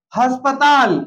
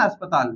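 First: "अस्पताल" with added h, has-pa-taal; wrong pronunciation. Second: "अस्पताल" with no h, as-pa-taal, lower; correct pronunciation. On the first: Teacher shows what many people say, "अस्पताल" starting with h. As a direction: put an h before "अस्पताल". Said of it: "जबकि अस्पताल नहीं होता". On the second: Teacher gives corrected "अस्पताल", no h, falling low. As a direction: open "अस्पताल" straight on the vowel. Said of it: "क्या होता है वो". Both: Shown as a demonstration.

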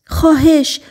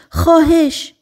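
First: High, pleading please; begging girl. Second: Higher, even more desperate please; begging girl, more urgent. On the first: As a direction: beg desperately for help. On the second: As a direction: plead harder the second time. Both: Acted. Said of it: "دختر ملتمسانه جیغ زد".

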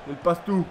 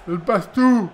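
First: Said in the usual way. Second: Louder excited repeat. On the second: Real, not acted. Repeats dribble remark louder.

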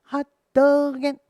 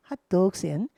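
First: "hot dog and" slow and louder, accent on "dog"; syncopated hot dog. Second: Said in the usual way. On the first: Shown as a demonstration. Teacher demonstrating the syncopation. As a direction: land "dog" off the beat. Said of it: "싱코페이션이죠". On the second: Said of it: "하고 French fry에서 좀 쉬세요".

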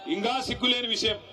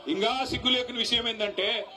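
First: ఇంకా సిగ్గు లేని విషయం shouted through a laugh, stress on లేని. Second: Said in the usual way. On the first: Real, not acted. Rally speaker mocking the defected MLA, laughing shout.

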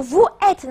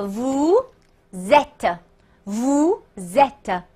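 First: "vous êtes" as "vu èt", silent s; wrong, without liaison. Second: "vous êtes" slowly as "vu-zèt"; correct liaison. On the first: Teacher asking students a trick question, "vous êtes" without the z. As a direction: leave the s of "vous" unsounded before "êtes". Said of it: "一定不是". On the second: Teacher giving students the right reading, slow "vous êtes" with z liaison. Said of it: "应该读成". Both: Shown as a demonstration.

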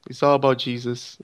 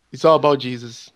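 Both takes have the same delivery.

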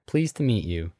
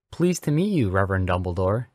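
First: Mildly sweet, modest greeting; sweet, shy. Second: Enthusiastic. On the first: Daughter is introduced to the new boy, shyly sweet. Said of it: "Hermione responded sweetly with a shy grin". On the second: Boy meets the reverend at the castle, enthusiastic. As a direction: greet with bouncing enthusiasm. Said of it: "Harry replied enthusiastically". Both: A narrator's reading.

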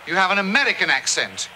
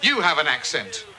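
First: "American" picked out as the key word, then falling; stress on American. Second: Low retort with You stressed. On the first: Spells out whose accent it is, stress on American. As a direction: hit "American" to correct the listener. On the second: Denies having an accent, stress on You. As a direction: lean on "You" to turn the charge back, then fall. Turns the accent charge back. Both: Acted.

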